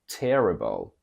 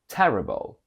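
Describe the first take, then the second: First: An American accent with a lowered vowel. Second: A British accent with an open vowel. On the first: "From British to American" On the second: "From British to American"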